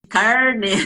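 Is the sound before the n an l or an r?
r. The sound before the n is an r. The speaker calls it right. "em vez de carne"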